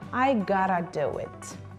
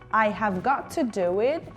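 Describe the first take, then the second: First: 'Have' is dropped and 'got to' becomes gotta. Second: Every word is said in full, unreduced. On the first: "we say" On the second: "instead of"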